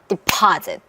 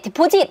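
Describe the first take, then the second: First: The stress falls on the middle syllable. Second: The stress falls on the last syllable. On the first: The speaker calls it right. "deposit 이렇게 소리를 내셔야 돼요" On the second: The speaker calls it wrong. "이러면 강세가 뒤에 있는 걸로 들려요"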